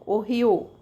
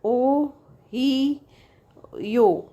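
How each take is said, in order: First: Said in the usual way. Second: ओ ही यो said as three beats with pauses between; three separate syllables. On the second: Shown as a demonstration. Teacher showing students three syllables in Ohio, one at a time. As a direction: split ओ, ही, यो apart, each held. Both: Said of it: "and three syllables".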